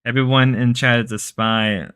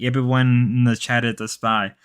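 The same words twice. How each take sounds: First: Lazy, barely changed take on Grace; lazy Grace impression. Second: Said in the usual way. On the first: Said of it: "This is probably the laziest impression Grace does".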